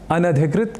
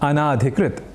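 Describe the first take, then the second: First: The vowel after the first 'n' is short. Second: The vowel after the first 'n' is long. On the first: The speaker calls it right. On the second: The speaker calls it wrong.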